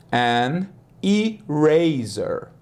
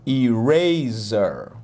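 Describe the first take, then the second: First: English an eraser. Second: Eraser stretched out slowly, i-RAY-zer. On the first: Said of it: "slow teaching repetition". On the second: Teacher drawing out eraser slowly for students to copy. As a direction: draw out Eraser syllable by syllable. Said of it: "slow model take". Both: Shown as a demonstration.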